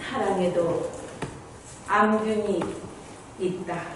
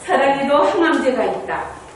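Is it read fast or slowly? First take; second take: slowly; fast. First: It is read slowly. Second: It is read quickly.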